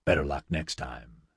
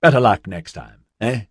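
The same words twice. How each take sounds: First: Low, soft mock consolation; dry retort. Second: Cheery consolation, punched loud; cheerful. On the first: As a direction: hand the jibe back quietly and dryly. Nigel returns senator's jibe. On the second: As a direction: toss out loud, breezy sympathy. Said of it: "said cheerfully". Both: A narrator's reading.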